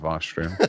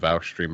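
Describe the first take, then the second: First: The name's vowel rhymes with 'Josh'. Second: The name's vowel rhymes with 'ouch'. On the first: The speaker calls it right. "That's always Vosh. that's how it's pronounced" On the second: The speaker calls it wrong. "I don't know how they got Vouch"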